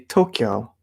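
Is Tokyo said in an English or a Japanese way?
Japanese. It is said with a Japanese-style pronunciation. The speaker calls it right. "We say Tokyo"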